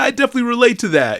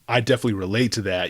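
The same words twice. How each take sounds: First: It is said lightly, in an amused tone. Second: It is said heavily, in a serious tone. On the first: The poem feels funny and relatable. "you're typically giggling" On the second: The poem hits hard emotionally. "it just starts hitting harder and harder"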